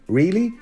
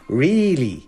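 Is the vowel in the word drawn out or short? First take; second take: short; drawn out. First: The vowel is kept at a normal, short length. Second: The vowel is stretched out and held long. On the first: The speaker calls it right. "instead of going really" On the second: The speaker calls it wrong. "you elongate the duration of the vowel"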